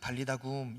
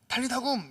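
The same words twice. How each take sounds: First: It is said softly and gently. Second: It is said sharply and forcefully. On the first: "이런 어투가 아니라" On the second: "이렇게 한다거나 야 빨리 안 일어나냐 라는 이런 앙칼지고 굉장히 카리스마 있는 목소리"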